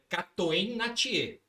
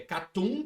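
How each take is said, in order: First: The name is pronounced as it is spelled. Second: The name is pronounced with Flemish sounds. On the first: "você lendo é Catoen Natier" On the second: "quando você pronuncia em Flemish é Catum"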